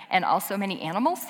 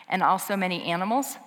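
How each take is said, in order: First: "And also many animals?" repeated fast with an amused rising question. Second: Said in the usual way. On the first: Shown as a demonstration. Pastor rereads the book's final line to the congregation, amused. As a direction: relish the odd ending of "And also many animals?" with a grin. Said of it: "I just think it's funny". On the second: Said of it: "this is how the whole book ends".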